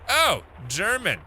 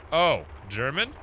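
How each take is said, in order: First: "Oh, German" high and drawn out, falling at the end; "Oh, German" as a firm statement; stated realization. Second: "Oh, German" slow, rising at the end; "Oh, German" nearer usual pitch, as a question; questioning repeat. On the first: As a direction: say "Oh, German" slowly as a discovery. Realizing the caller's language, then questioning it. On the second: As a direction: ask "Oh, German" as if checking. Same words repeated as a question. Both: Acted.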